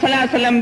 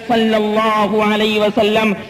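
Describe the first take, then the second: First: The phrase is slurred into a short clipped form. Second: Every word of the phrase is fully pronounced. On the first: The speaker calls it wrong. "बिल्कुल गलत होगा" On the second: The speaker calls it right. "इस तलफ्फुज को सही अदा करना चाहिए"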